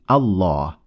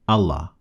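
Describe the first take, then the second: First: The vowel after the L is long. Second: The vowel after the L is short. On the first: The speaker calls it right. "indicates the existence of an alif afterwards" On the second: The speaker calls it wrong.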